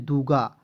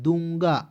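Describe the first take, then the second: First: The first vowel is plain, not through the nose. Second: The first vowel is said through the nose. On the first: The speaker calls it wrong. "एन का प्रयोग नहीं करते तो क्या पढ़ते?" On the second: The speaker calls it right. "नाक से बोलते हैं"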